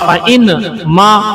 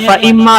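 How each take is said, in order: First: The n is pronounced separately before m. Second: The n merges into a doubled m sound. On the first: "असल में फ़इन मा था" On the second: "फ़इम्मा असल में फ़इन मा था"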